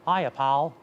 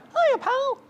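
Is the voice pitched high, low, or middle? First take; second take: low; high. First: The voice is pitched too low. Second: The voice is pitched too high. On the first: "If I go too low" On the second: "If you go too high"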